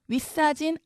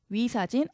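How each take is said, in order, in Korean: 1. 사진의 ㅅ은 경음입니다. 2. 사진의 ㅅ은 평음입니다.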